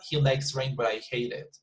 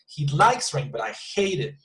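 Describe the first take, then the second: First: It is flat with no stress on the verbs. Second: The verbs likes and hate are strongly stressed. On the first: The speaker's intended contrast is unclear. The speaker calls it wrong. "it's like there is no emotion" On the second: The contrast between the two people's feelings is clear. The speaker calls it right. "I need to emphasize on the two verbs"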